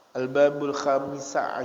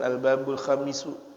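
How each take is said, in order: First: The second word ends with an 'a' vowel. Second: The second word ends with a 'u' vowel. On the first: The speaker calls it right. "dibacanya seperti itu" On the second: The speaker calls it wrong.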